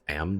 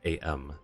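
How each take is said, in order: First: It is said as a single word. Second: It is said as two separate letters. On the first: "is it pronounced am then?" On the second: "Because I being all caps, I thought it was A M"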